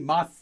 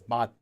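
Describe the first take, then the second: First: The syllable ends with an s sound. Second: The syllable ends with a t sound. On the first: The speaker calls it wrong. "You can't say mas" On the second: The speaker calls it right. "You have to say it as mat"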